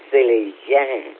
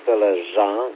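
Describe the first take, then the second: First: The name is said with a French-like accent. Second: The name is said without a French-like accent. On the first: The speaker calls it right. "Așa e pronunția corectă, Sălăjan, cu un accent ăsta francezesc" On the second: The speaker calls it wrong. "nu e Sălăjan"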